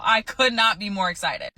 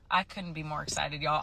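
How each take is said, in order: First: COULD NOT said as two separate, punched words; emphatic excitement. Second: Softer, held-in delivery; understated excitement. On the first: Nurse telling viewers she's thrilled, "could not" stressed. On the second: Nurse confiding in viewers about quitting, quietly understated. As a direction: say it softly, holding the excitement in. States excitement, low first take. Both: Real, not acted.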